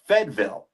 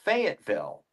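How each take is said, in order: First: The name is squeezed into two short syllables. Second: The name is said in full, every syllable. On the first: The speaker calls it right. "they pronounce it Fedville" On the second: The speaker calls it wrong. "it's not Fayetteville"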